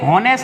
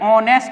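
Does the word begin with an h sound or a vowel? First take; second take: h sound; vowel. First: The word begins with an h sound. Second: The word begins directly with a vowel. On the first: The speaker calls it wrong. "ये हॉनेस्ट नहीं होता" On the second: The speaker calls it right. "H silent होता है, ऑनेस्ट होता है"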